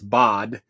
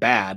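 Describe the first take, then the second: First: It sounds like the German town name. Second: It sounds like the English word bad. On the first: The speaker calls it right. "It's Bad" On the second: The speaker calls it wrong. "So it's not bad"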